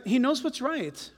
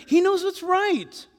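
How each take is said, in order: First: Said in the usual way. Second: "He knows what's right" high, loud and drawn out; emphatic declaration. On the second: Real, not acted. Preacher repeating the key point to the congregation, emphatic "He knows what's right". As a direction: proclaim "He knows what's right" slowly, with force.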